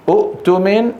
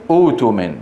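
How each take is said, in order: First: أؤتمن higher, short u cut by a glottal stop; original hamza form. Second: أوتمن lower, with a smooth long oo; substituted long vowel. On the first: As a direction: break أؤتمن after the first u, ending up. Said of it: "عند البدء أصلها". (نطق «أؤتمن» بهمزة ساكنة محققة) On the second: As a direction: glide through أوتمن with no glottal stop. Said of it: "حرف مد مجانس". (نطق «أوتمن» بمدّ الواو) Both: Shown as a demonstration.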